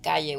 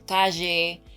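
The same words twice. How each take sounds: First: It is said in a Spain/Mexico accent, y-like. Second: It is said in an Argentinian accent, zh-like.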